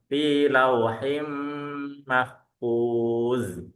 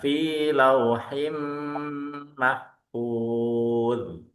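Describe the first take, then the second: First: The final consonant is a hissing z sound. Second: The final consonant is a soft interdental sound. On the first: The speaker calls it wrong. "Jadi bukan fi lauhim mahfuz" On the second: The speaker calls it right.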